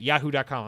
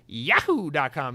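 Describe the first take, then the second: First: Said in the usual way. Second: Whooped, cartoonish "yahoo" in an email address; Mario. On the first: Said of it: "when people say yahoo dot com". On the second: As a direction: burst into the mascot's Italian-accented catchphrase. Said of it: "then I do the Mario".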